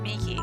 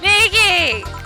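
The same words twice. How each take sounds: First: It is said weakly and hesitantly. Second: It is said loudly with lots of spirit.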